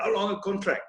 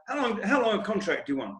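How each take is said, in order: First: Put-on light South African accent on "How long a contract?"; a hint of South African, lightly imitated. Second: Said in the usual way. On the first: Imitating captain Eddie Barlow's question in a light South African accent. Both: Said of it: "In his South African accent".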